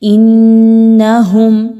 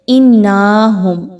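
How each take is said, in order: First: The n is held with a full nasal hum. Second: The n is short without a held nasal hum. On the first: The speaker calls it right. "गुन्ना हो जाए मुकम्मल, उसके बाद नून की ज़बर" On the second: The speaker calls it wrong. "ऐसा नहीं पढ़ना"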